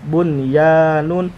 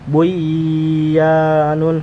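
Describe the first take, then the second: First: The n sound is pronounced clearly before y. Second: The n sound is dropped and merged into y. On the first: The speaker calls it right. "dibaca jelas bunyanun" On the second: The speaker calls it wrong. "tidak boleh dibaca buyanun"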